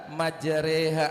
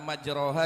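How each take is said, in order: First: The vowel after r is tilted toward e. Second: The vowel after r is an open a or o. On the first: The speaker calls it right. "yang benar majreha" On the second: The speaker calls it wrong. "majroha dibaca majreha"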